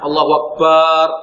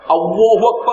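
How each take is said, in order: First: The final syllable 'bar' is drawn out long. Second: The final syllable 'bar' is kept short. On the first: The speaker calls it wrong. "atau barnya dibaca panjangkan" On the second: The speaker calls it right. "bukan berarti bacanya berantakan. Bacanya"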